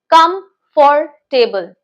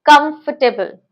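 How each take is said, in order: First: The middle 'for' syllable is stretched out. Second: The middle 'for' syllable is short and reduced. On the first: The speaker calls it wrong. "some people call it as comfortable" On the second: The speaker calls it right. "for shouldn't be stretched. So it should be comfortable"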